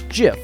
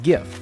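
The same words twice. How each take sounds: First: The word begins with a soft J sound. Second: The word begins with a hard G sound.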